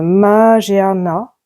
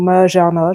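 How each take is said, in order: First: "Magearna" drawn out slowly, syllable by syllable; hesitant, elongated first attempt at "Magearna"; unsure pronunciation. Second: "Magearna" run together as "ma-jar-na"; "Magearna" said compactly, without drawing it out; alternative pronunciation. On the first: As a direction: try out "Magearna" very slowly, stretching the vowels. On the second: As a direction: offer "Magearna" as a quicker second guess. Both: Shown as a demonstration. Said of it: "je sais pas comment ça se prononce".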